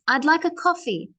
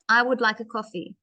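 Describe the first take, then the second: First: I and would are joined into one syllable. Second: I and would are said as separate words. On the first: "when we contract, means putting together" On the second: "I would"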